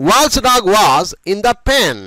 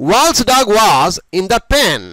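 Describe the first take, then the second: The two takes are said the same way.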